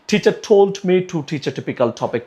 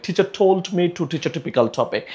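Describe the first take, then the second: The two takes are said the same way.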